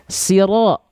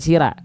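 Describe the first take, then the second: First: The r is heavy, with a dark o-like vowel. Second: The r is light, with a bright a vowel. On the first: The speaker calls it right. "Ro itu huruf tebal" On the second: The speaker calls it wrong. "bukan sira"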